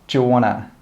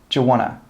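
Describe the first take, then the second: First: The words are run together quickly as 'wanna'. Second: The words are run together quickly as 'wanna'.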